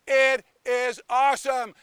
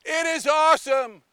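First: Said in the usual way. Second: Excited praise. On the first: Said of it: "how awesome it is". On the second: Acted. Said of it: "You guys are awesome".

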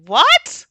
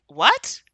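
First: Very high, loud rising exclamation; loud shocked disbelief. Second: Short rising question, slightly louder; mild shocked disbelief. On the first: Herself hearing his excuse, loudly incredulous. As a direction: explode in acted incredulity, pitch shooting up. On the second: Herself hearing he took it off, mildly shocked. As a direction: react with contained shock. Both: Retold or imitated. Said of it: "being, like, shocked".

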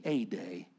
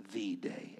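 First: "a" said as a full "ay", set apart; stress on "a". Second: "the" said as a drawn-out "thee"; stress on "the". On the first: Pastor contrasting one day with a defining one, stress on "a". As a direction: lean on "a" as "ay", meaning one among many. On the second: Pastor denying it is the defining day, stress on "the". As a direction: lean on "the" as "thee", meaning the only one. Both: Shown as a demonstration.

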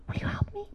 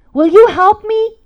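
First: Hushed, voiceless whisper; whispered plea. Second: Loud, high, slow appeal; urgent plea. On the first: Mom asking her son to help her, whispering. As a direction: repeat the appeal as an intimate whisper. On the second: Mom asking her son to help her, loudly pleading. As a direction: plead out loud, stretching the words. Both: Retold or imitated.

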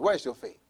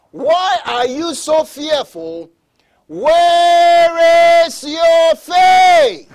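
First: Said in the usual way. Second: Loud, high, drawn-out preacher's shout; booming challenge from the pulpit, very slow; shouted rebuke. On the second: Acted. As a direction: thunder the question, stretching every word. Preacher thunders Jesus's rebuke.

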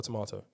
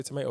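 First: "tomato" with a long AH, tuh-MAH-toh; "tomato" pronounced with a broad open A; British-style tomato. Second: "tomato" with a long AY, toh-MAY-toh; "tomato" with middle vowel as in "day"; American-style tomato. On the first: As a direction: say "tomato" with middle vowel as in "father". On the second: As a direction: say "tomato" to rhyme with potato. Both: Shown as a demonstration. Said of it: "Do you guys say tomato or tomato".

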